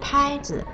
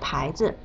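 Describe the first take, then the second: First: The first syllable has a high level tone. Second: The first syllable has a rising tone. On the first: It names a racket for hitting a ball. "拍是一声" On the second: It names a brand or a sign. "牌是二声"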